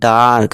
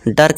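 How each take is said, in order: First: The vowel is a long aa sound. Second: The vowel is a short uh sound. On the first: The speaker calls it right. "बड़ा आ की मात्रा" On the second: The speaker calls it wrong. "डर्क नहीं"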